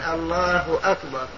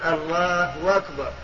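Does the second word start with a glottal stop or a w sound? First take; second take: glottal stop; w sound. First: The second word starts with a glottal stop. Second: The second word starts with a w sound. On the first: "بدل الله أكبر" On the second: "يعني يبدل الهمزة هو الله أكبر بدل الله أكبر"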